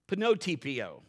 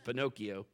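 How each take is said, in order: First: The word is pronounced with a t-sound added. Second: The word is pronounced in the standard way. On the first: "How's he say that?" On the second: "That's how he says Pinocchio"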